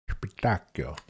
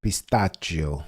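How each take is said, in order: First: Spitacchio said as pee-TAH-kyo with a hard k; Italian-style pronunciation. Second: Pistachio said slowly as pis-TAH-zhio; careful pronunciation. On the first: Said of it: "It's pronounced Spitacchio". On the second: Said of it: "How should it be said". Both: Shown as a demonstration.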